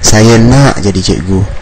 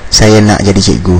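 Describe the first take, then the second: First: It is said with strong, lively emphasis. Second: It is said flatly, without emphasis.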